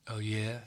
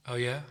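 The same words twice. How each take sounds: First: Drawl. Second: Said in the usual way. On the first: A narrator's reading. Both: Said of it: "he drawled".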